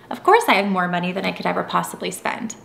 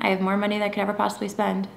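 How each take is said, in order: First: It sounds emphatic and obviously certain. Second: It sounds casual and neutral, like normal thoughts.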